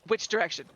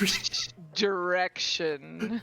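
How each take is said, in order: First: The phrase is said quickly. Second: The phrase is said slowly. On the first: The speaker calls it wrong. "I don't say it that fast. That's not how Nero talks" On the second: The speaker calls it right. "He says"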